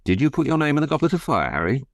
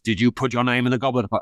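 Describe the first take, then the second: First: The question is asked calmly and gently. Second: The question is asked aggressively and forcefully.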